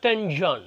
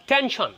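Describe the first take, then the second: First: "tension" voiced as ten-jon; mispronounced tension. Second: "tension" with a crisp sh, as ten-shon; clear SH in "tension". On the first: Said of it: "টেনশন বলতে পারবেন না". ("tension"-এ শ-র জায়গায় জ, টেনজন) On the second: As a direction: say "tension" with SH, not J. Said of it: "not tension।". ("tension"-এ স্পষ্ট শ, টেন-শন) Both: Shown as a demonstration.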